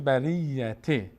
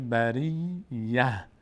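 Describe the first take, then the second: First: The word ends with a t sound. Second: The word ends with an h sound. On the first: The reciter continues into the next words. "ت اگر ادامه بدیم میشه بریته" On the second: The reciter stops after this word. "اگر آخر بایستیم این ت میشه ه"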